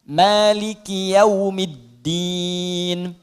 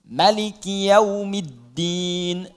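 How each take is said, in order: First: The first vowel of Maliki is held long. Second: The first vowel of Maliki is kept short. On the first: "Maliki bisa dibaca panjang, dua harakat mad tabi'i" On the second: "boleh dibaca pendek di mimnya, maknya"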